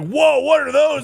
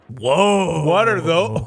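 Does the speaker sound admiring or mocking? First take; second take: admiring; mocking. First: It sounds admiring and impressed. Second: It sounds mocking and scornful. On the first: The shoes are being praised. The speaker calls it right. "I meant like" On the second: The shoes are being made fun of. The speaker calls it wrong. "I didn't mean to say it like that"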